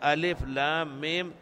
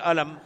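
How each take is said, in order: First: Each letter is named separately by its name. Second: The letters are blended into one word. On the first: The speaker calls it right. "تقرأ هكذا أبجدا" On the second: The speaker calls it wrong. "لا تقول ألم ذلك الكتاب"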